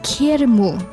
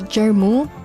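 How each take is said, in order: First: The name is said with a Spanish pronunciation. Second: The name is said with an English pronunciation. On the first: "In Spanish it's kermu" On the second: "in English we call it ger, right?"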